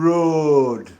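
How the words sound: The word has a Sheffield accent vowel. "You would say it as"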